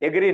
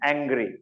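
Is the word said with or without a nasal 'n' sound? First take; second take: without; with. First: It is said without a nasal 'n' sound. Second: It is said with a nasal 'n' sound. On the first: The speaker calls it wrong. "એગ્રી નહીં" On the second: The speaker calls it right. "એ એન જી આર વાય"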